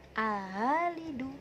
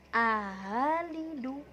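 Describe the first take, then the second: Both takes have the same delivery.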